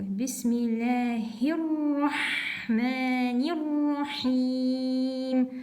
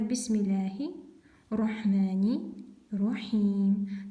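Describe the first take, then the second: First: The R sounds are doubled and linked. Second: The R sounds are single and not linked. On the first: The speaker calls it right. "Надо словить эти буквы" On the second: The speaker calls it wrong. "не ловят ... Так неправильно"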